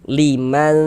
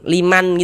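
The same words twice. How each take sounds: First: The n is blurred and nasalized, then held. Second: The n is pronounced clearly and distinctly. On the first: The speaker calls it right. "disamarkan liman, kemudian didengungkan" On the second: The speaker calls it wrong. "jangan dibaca liman liman gitu. Kalau dibaca liman jelas gitu dia izhar jadinya"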